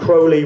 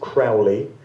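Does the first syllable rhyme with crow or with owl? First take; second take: crow; owl. First: The first syllable rhymes with crow. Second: The first syllable rhymes with owl. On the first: The speaker calls it right. "would appear to be the correct pronunciation of his name" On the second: The speaker calls it wrong. "A lot of people pronounce it Crowley, as I did for many years"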